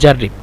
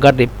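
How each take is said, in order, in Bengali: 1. শব্দটি একটি j ধ্বনি দিয়ে শুরু হয়। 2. শব্দটি একটি শক্ত g ধ্বনি দিয়ে শুরু হয়। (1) "জিমকে যদি জিম হিসেবে ব্যবহার করি তাহলে বলবো জাররিব" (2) "জিমকে যদি আমরা গইন হিসেবে ব্যবহার করি তাহলে বলবো গাররিব"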